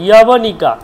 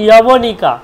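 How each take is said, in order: The two takes are said the same way.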